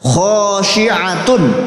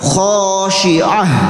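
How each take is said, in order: First: The word ends with a full -atun ending. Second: The word ends with a silent h sound. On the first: The reading continues without stopping. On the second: The reader stops on this word.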